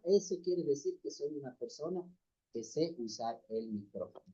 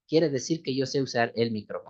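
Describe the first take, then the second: First: Speaking far off the mic. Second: Said in the usual way. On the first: Shown as a demonstration. Demonstrating to the brothers how mic distance sounds, far off and faint. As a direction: voice fading away from the microphone. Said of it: "Si es que hablo de esta forma". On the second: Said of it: "Si es que hago eso".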